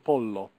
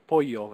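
First: It is said with an Italian pronunciation. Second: It is said with a Spanish-style pronunciation. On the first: This is the intended Italian form. The speaker calls it right. "instead of pollo" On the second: The speaker slipped into Spanish habits. The speaker calls it wrong. "both of you resorted to pollo"

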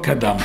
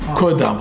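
First: The first vowel sounds like 'a'. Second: The first vowel sounds like 'o'. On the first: The speaker calls it wrong. "לא קדם" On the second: The speaker calls it right. "קודם, חטף קמץ"

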